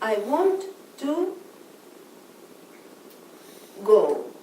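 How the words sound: There is a pause between to and go.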